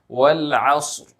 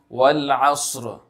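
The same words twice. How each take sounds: First: The final sound is held back and cut short. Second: The final sound is drawn out and extended. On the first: The speaker calls it right. "So say it this way ... you have to restrain it" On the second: The speaker calls it wrong. "don't make it sound like wal asr, asr. That extra extension of sound should be avoided"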